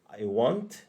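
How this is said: The vowel in want is open, like 'ah'. "Kalau di Amerika... A yang straightforward. Ah"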